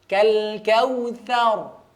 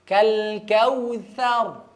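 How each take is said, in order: No difference in how they are said.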